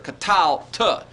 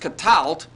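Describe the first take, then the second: First: The final t is split off as a separate syllable. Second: The final t is joined into one syllable. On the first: The form in theory, as two syllables. "in theory, I guess, the accent should be here" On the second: The form in practice, as heard. "they hear all of this as one syllable"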